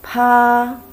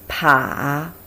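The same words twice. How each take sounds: First: It is said with the first tone. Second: It is said with the third tone. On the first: "first tone" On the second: "Third tone"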